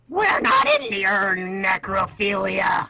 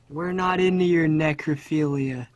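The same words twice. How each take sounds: First: It is said in a put-on gnome character voice. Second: It is said in the speaker's ordinary voice.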